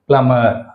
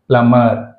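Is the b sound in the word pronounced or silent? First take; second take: silent; silent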